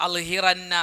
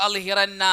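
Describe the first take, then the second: Both takes have the same delivery.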